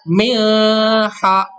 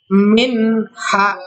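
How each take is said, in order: First: The n is hidden with a nasal hum. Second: The n is said clearly without nasal hum. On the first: The speaker calls it wrong. "nggak bisa miha, nggak bisa gitu" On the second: The speaker calls it right. "dibacanya tidak mendengung, dibacanya jelas"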